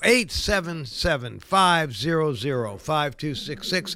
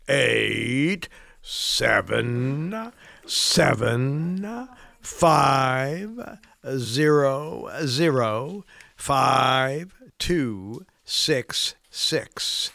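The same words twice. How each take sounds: First: The number is said fast. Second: The number is said slowly.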